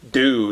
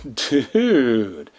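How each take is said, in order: First: It is said short, in one syllable. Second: It is drawn out over three syllables.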